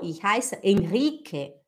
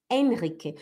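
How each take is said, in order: First: "Henrique" stressed on the middle syllable RI; wrong Brazilian stress. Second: "Henrique" with HEN stressed, falling after; correct German stress. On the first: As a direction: demonstrate "Henrique" with a drawn RI, Brazilian style. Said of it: "E não". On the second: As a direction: model "Henrique" low, first syllable strong. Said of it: "Não é Henrique". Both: Shown as a demonstration.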